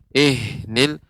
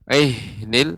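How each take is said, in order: Both takes have the same delivery.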